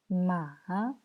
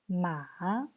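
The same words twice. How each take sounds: First: It is said with the third tone. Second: The same.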